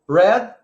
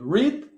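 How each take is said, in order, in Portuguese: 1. A palavra tem uma pronúncia diferente, alterada. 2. A palavra tem a pronúncia básica normal.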